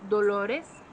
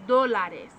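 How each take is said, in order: First: Dolores slowly as do-LO-res, rounded o in the middle; slow dolores, stressing LO, rising at the end; stress on second syllable. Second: Dólares as DO-la-res, open a in the middle; stress on first syllable. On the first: Teacher contrasting pain with dollars, dolores stressed do-LO-res. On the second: Teacher contrasting dollars with pain, dólares stressed DO-la-res. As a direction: punch DO in dólares, louder, then fall. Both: Shown as a demonstration. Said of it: "Did you see the way my mouth changed?".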